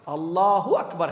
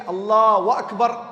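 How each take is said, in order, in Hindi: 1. पहला शब्द 'u' ध्वनि पर खत्म होता है। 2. पहला शब्द 'wa' ध्वनि पर खत्म होता है। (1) "अल्लाहु अकबर है बस" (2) "अगर कोई ये कि अल्लाह व अकबर"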